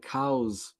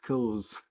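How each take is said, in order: First: The vowel sounds like the one in 'now'. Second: The vowel sounds like the one in 'saw'. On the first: The speaker calls it wrong. "Sometimes my accent is a bit weird, yeah, so sometimes I could say cows" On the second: The speaker calls it right. "but it's not cows, yeah, it's cause"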